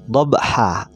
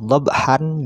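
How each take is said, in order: First: The word ends with a long a vowel. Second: The word ends with a short a and n. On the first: The reader stops at this word. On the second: The reader keeps going without stopping.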